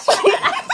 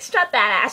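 First: Very high squeal breaking into laughter; squealed mimicry. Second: Said in the usual way. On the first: Imitating friend urging her to strut, giggly squeal.

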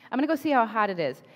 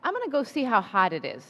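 First: "I'm gonna go see how hot it is" rattled off quickly; a quick casual thought to self; fast inner voice; quick retold thought. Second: Said in the usual way. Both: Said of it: "and then I thought".

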